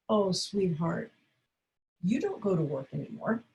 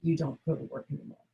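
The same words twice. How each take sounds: First: Kind, caring tone; loving and calm. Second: Soft, quiet, gentle reply; hushed, caring tone; gentle and calm. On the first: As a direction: gently break it to him with care. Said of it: "lovingly, calmly, with wonderful, caring intention". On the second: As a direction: say it gently and calmly. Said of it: "say to him gently, calmly". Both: Shown as a demonstration.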